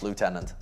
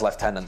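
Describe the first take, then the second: First: It is said with the French-like pronunciation. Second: It is said with the English pronunciation. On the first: The speaker calls it right. "It should be pronounced" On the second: The speaker calls it wrong. "That's just stupid"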